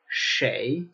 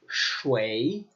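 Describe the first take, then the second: First: The word is pronounced like shay. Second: The word is pronounced like shui. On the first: This is the usual form across most places. "typically, it's shay" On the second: This is a regional form heard among older people. "in some locations, particularly among older people, it becomes shui"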